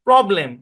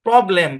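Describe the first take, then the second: No difference in how they are said.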